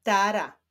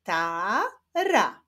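First: Said in the usual way. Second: "Tara" slowly split into ta, ra; syllable by syllable. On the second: Shown as a demonstration. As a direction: sound out "Tara" with a break between syllables. ("Tara" powoli, z podziałem na ta, ra) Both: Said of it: "Łączymy ze sobą sylaby".

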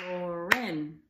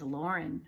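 First: Lauren in two loud beats, Lau-ren; syllable by syllable. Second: Said in the usual way. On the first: Shown as a demonstration. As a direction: clap out both syllables of Lauren, loudly. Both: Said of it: "Two for Lauren".

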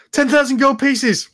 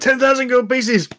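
First: High loud blurt; blurted demand. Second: High shouted blurt; sudden shout. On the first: Magically prompted brother blurts the sum, high and loud. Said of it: "your, uh, suggestion goes". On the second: Brother suddenly shouts his demand aloud, high. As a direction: shout the sum out loud. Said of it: "you can hear him suddenly shout out loud". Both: Acted.

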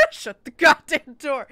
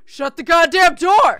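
First: Loud, slow comic re-enactment; mock ghost shout. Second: Very loud, high, drawn-out yell; furious ghost shout. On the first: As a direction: yell it as an amused imitation of an angry ghost. Repeats ghost's shout for laughs. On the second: Acted. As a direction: bellow it slowly, word by word. Plays furious ghost behind door.

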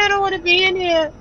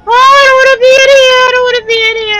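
First: Softer, fast frightened muttering; scared murmur. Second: High, loud, fast frightened pleading; panicked whine. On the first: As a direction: mumble it, fear draining away. Repeating, fear fading. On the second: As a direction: blurt it out in terror. Trapped in room with monster. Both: Real, not acted.

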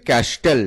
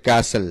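First: ক্যাস্টেল with T sounded after S; mispronounced ক্যাস্টেল. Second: ক্যাসেল with a silent T; correct pronunciation. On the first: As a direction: say ক্যাস্টেল as spelled, kas-tel. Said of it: "ক্যাস্টেল উচ্চারণটা সঠিক নয়". (ক্যাস্টেল, ট উচ্চারণ করে) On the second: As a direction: say ক্যাসেল with S going straight into "el". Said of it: "সঠিক উচ্চারণ হচ্ছে". (ক্যাসেল, ট অনুচ্চারিত) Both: Shown as a demonstration.

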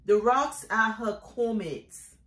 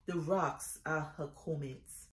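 First: Declaimed poetry line, full voice; firm poem refrain. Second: Soft, low closing line of a poem; hushed poem refrain. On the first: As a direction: state the refrain firmly, falling at the end. Poem refrain, first firm take. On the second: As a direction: let the refrain sink to a quiet, low close. Poem refrain repeated softly at close. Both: Acted.

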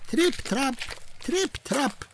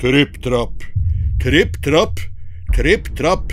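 First: High, soft tiny hoofsteps; light tripping steps. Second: Stomp them out heavily; heavy stomping steps. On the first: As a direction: tiptoe it high and softly. Smallest goat crossing bridge. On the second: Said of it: "så tung at det både knaket og braket". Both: Acted.

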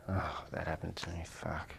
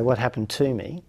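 First: Low, much softer, defeated groan of self-pity; deflated victim. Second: Said in the usual way. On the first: Shown as a demonstration. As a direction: sink into it like the world is against you. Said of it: "depending on what meaning you place upon it". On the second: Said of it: "Or, or you could say".

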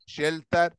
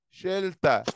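First: "شيلتر" said as shelter, the final r sounded clearly. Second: "شيلتا" said as shelta, ending on an open a with no r; ending in a, not r. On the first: Teacher spells shelter for pupils, r sounded. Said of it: "وهنا شيلتر". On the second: Teacher corrects pupil's shelter, ending in a. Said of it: "أكنها أ، مش أو". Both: Shown as a demonstration.

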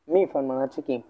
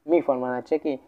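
No difference in how they are said.

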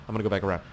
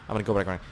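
No difference in how they are said.

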